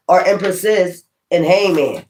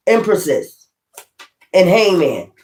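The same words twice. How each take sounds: First: Said in the usual way. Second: Empresses and in Hangman each set apart by a pause; emphasized phrase. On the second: Shown as a demonstration. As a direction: lean on Empresses, pause, then land in Hangman firmly. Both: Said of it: "I'm gonna emphasize that".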